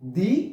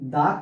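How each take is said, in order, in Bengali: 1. শব্দটি দীর্ঘ 'ee' স্বরধ্বনি দিয়ে শেষ হয়। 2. শব্দটি ছোট 'uh' স্বরধ্বনি দিয়ে শেষ হয়। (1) "সেই দায়ের উচ্চারণটা হবে দি" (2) "সেই দায়ের উচ্চারণটা আমরা করব স্বাভাবিক দায়ের মতো"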